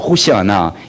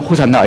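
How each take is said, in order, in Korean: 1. 천천히 말해요, 음절이 하나하나 떨어져 있어요. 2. 빨리 말해요, 음절이 서로 붙어요.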